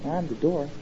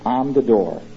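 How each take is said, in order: First: It is said casually and offhandedly. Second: It is said seriously and forcefully.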